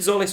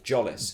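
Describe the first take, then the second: First: The name begins with a soft z sound. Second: The name begins with a hard j sound. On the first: The speaker calls it wrong. "I think Zolis worked" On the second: The speaker calls it right. "Apparently it's Zolis with a hard J"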